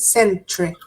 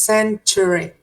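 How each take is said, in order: First: The middle syllable is dropped, leaving two. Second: All three syllables are pronounced clearly. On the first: "many people pronounce it century, century. The second syllable kind of disappears" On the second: "you can say the three syllables"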